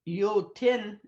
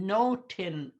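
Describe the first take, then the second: First: The word begins with a y sound. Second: The word begins with an n sound. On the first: This is the Plains Cree form. "in the Plains Cree" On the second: This is the Swampy Cree form. "in the Swampy Cree, because it's with an N"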